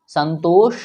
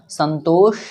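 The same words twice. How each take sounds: Both takes have the same delivery.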